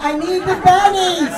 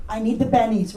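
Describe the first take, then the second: First: Slow, laughing push on bennies; drawn-out laughing bennies; laughing emphasis. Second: Bennies muttered low and quiet; low aside. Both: Shown as a demonstration.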